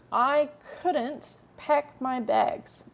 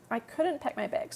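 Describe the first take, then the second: First: Each word drawn out for learners; very slow model sentence. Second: Said in the usual way. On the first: Shown as a demonstration. Teacher to students, modelling the sentence very slowly. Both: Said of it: "teacher models the translation".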